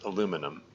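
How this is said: It is said the American way, four syllables. "in the U S and and uh, Canada too. Really, it's it's pronounced and spelled aluminum"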